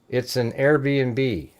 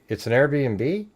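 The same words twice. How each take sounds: First: The voice falls at the end, a statement. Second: The voice rises at the end, a question.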